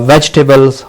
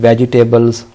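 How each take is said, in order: First: It is said the standard English way. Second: It is said the common local way. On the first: The speaker calls it right. "this word I'm going to write in front of you" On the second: The speaker calls it wrong. "mostly speaken or spoken in our uh, culture"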